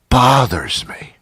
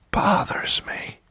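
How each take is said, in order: First: Slow, higher, voiced and strained; pent-up irritation. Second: Soft, slow, strained whisper; tense whisper. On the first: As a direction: draw it out, barely containing annoyance. Repeats the whispered complaint voiced. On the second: Acted. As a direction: whisper it with pent-up irritation. Confides irritation, then repeats it.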